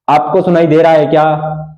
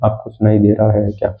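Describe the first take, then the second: First: It is said loudly. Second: It is said softly.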